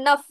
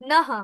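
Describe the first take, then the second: First: The word ends with an f-like sound. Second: The word ends with a breathy h sound. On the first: "ফয় হসন্ত করে উচ্চারণ করি, যেমন নফ" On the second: "এই বিসর্গটার পরে যে শব্দটা আছে প"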